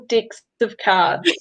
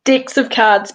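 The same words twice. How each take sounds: First: "Decks of cards" said slowly, each word spelled out clearly; slow careful enunciation. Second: Said in the usual way. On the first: Shown as a demonstration. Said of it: "Decks of cards, people". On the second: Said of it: "I know you're a New Zealander".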